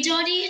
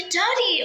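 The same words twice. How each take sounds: First: Said in the usual way. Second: Louder, higher urgent call of her name; alarmed shout of Dottie. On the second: Acted. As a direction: call Dottie sharply to get her attention. Calling out to friend.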